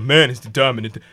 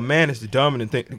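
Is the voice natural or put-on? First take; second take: put-on; natural. First: It is said in a put-on voice. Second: It is said in his natural voice. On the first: Listeners hear it as a chauvinist statement. "women hear it like in that voice" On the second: The speaker means it as a plain statement. "if I say"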